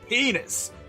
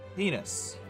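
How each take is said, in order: First: It is screamed at full volume. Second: It is said a little louder, at moderate volume.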